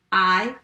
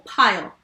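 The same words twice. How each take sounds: First: "P-I-L" as three separate sounds, not letter names; sounded out. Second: Said in the usual way. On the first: Shown as a demonstration. Teacher tapping the first syllable, sounded out. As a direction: tap out "P-I-L" sound by sound. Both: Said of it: "Let's tap the first syllable".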